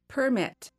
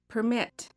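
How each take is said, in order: First: The stress is on the first syllable. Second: The stress is on the second syllable. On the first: It is used as a noun. "I will say the noun first" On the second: It is used as a verb. "the verb second"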